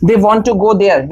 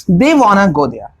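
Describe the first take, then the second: First: They want to go there, want and to kept apart and slow; slow uncontracted version for contrast; slow full form. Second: They wanna go there, spaced and slow; slow drill sentence for repetition; slow practice model. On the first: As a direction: spell out the full form slowly. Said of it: "अगर ये wanna नहीं होता तो क्या होता". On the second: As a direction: say it slowly so students can repeat. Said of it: "आप मेरे साथ में प्रैक्टिस कर सकते हैं". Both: Shown as a demonstration.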